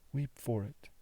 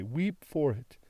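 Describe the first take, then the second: First: The echo dropped much softer; fading softer repeat. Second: Said in the usual way. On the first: A narrator's reading. Daughter repeating her plea to her father, softer fading echo. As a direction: let the repeat die away.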